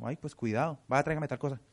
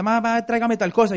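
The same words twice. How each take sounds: First: Mom's changed tone. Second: Put-on child asking mom. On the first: Retold or imitated. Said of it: "¿Cómo cambia la mamá el tono?". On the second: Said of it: "lo ha mandado a la tienda".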